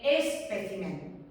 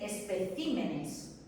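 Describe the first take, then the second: First: Slow "espécimen", stressed on PÉ; stress on second syllable. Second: Slow "especímenes", stressed on CÍ; stress shifted to CÍ. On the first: Teacher showing the singular, slow stress on PÉ in "espécimen". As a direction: draw out "espécimen" with the force on PÉ. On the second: Teacher showing the changed plural, slow stress on CÍ in "especímenes". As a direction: draw out "especímenes" with the force on CÍ. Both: Shown as a demonstration. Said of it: "Ha cambiado la sílaba tónica".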